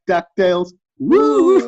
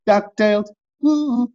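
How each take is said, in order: First: The woo is said with lots of energy. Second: The woo is said flatly, with no energy.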